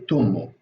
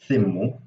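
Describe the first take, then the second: First: It starts with t and has an u vowel. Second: It starts with th and has an i vowel. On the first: "I say tummu. I say I say as t, and uh, the vowel I say o" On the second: "the mother says thimmu"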